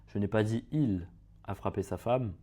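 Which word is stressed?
il. The word "il" carries the stress. Someone else hit his wife. "si on accentue sur un certain mot"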